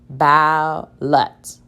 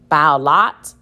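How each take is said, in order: First: The second vowel is a reduced schwa. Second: The second vowel is a full short vowel. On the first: The speaker calls it right. "Let me try it with the schwa sound" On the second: The speaker calls it wrong. "That doesn't sound right"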